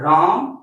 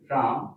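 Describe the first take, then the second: First: The word is said loudest of all. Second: The word is said softly. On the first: The sound is at its strongest. "और ज्यादा तेज से बोलेंगे" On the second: The sound travels only a short distance. "मेरा आयम क्या हुआ? कम हो।"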